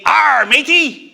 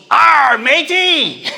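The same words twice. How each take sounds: First: Slow, drawn-out pirate growl. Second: Slow, loud, drawn-out pirate call; pirate shout. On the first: Cartoon kids greet each other in a slow hammed-up pirate voice. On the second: A toddler greets an eye-patched stranger with a slow, loud pirate shout. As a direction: holler it like a gleeful little pirate. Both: Retold or imitated.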